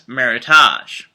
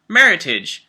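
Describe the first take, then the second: First: The ending does not sound like heritage. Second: The ending sounds like the end of heritage. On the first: The speaker calls it wrong. "incorrectly pronounced as" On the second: The speaker calls it right. "Think of it as a combination of merit and heritage"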